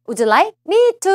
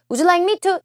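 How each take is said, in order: First: Slow stressed demo. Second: Said in the usual way. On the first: Shown as a demonstration. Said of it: "앞에 뭐라고 나왔어요?". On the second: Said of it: "라고 해석하시면 너무 좋겠어요".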